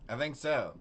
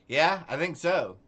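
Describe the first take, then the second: First: Said in the usual way. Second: "Yeah, I think so" said louder and higher while still laughing. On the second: Real, not acted. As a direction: let the words ride on the laugh. Still laughing, then calms down.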